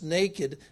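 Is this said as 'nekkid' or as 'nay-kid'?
nay-kid. It is said in a standard way, like 'nay-kid'. They were merely without clothes. "Adam and Eve weren't just naked"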